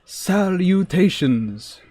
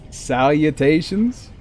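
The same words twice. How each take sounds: First: Salutations stretched out very slowly and a little higher, like a lofty nerd; grandly drawn-out greeting. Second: Mocking question. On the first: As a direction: savour every syllable of Salutations, slow and mock-grand. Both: Shown as a demonstration. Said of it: "only the nerdiest of the nerds ever say salutations".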